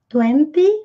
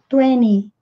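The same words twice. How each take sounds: First: The T after the N is clearly pronounced. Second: The T after the N is dropped. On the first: "podemos pronunciar ou não esse T" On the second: "ou não esse T"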